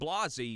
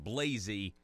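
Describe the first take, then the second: First: The A vowel is said in a fancy, posh way. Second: The A vowel is said in a plain, ordinary way. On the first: The name sounds more sophisticated. "Blasey sounds a little bit more sophisticated" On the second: The name sounds less sophisticated. "than Blasey"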